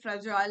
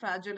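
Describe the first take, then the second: First: It is said with a British pronunciation. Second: It is said with an American pronunciation. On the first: "fragile is the U K pronunciation" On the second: "fragile is the American pronunciation"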